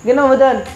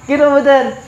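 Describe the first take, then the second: Both takes have the same delivery.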